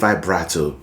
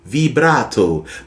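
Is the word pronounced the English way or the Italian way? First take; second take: English; Italian. First: The word has an English pronunciation. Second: The word has an Italian pronunciation. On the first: This is the common popular form. "a lot of people call it vibrato" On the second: This is the original form of the word. "it's an Italian word and it's actually pronounced vibrato"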